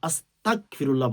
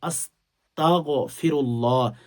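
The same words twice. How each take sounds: First: The consonant after 'asta' is a hard k. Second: The consonant after 'asta' is a throaty gh. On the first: The speaker calls it wrong. "এটা ভুল। ভুল উচ্চারণ" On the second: The speaker calls it right. "সহি শুদ্ধ করে উচ্চারণ করবেন"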